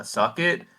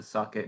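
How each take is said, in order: First: Higher, rising "suck it," as a taunt; mock catchphrase. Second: Said in the usual way. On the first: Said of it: "he goes to do the". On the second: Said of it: "mad about the".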